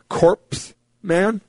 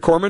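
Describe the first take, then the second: First: The first part sounds like the word corpse. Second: The first part sounds like core, consonants silent. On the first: The speaker calls it wrong. "he said corpse man" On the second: The speaker calls it right. "Instead of corpsman"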